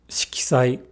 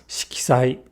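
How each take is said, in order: Both takes have the same delivery.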